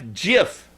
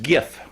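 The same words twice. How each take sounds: First: It begins with a soft J sound. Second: It begins with a hard G sound. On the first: "Like the peanut butter, J I F" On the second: "Like gift with the T left off"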